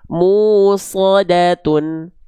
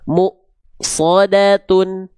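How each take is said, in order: First: The first syllable runs smoothly into the next. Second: The first syllable is cut off by a catch. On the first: The speaker calls it wrong. "enggak kita baca musadatun" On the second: The speaker calls it right. "mu-nya ngerem dulu pasti"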